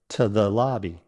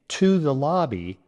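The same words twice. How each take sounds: First: The word 'to' is a quick, soft tuh. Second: The word 'to' has a strong oo vowel. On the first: The speaker calls it right. "a native speaker might say something like" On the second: The speaker calls it wrong. "with a strong oo sound"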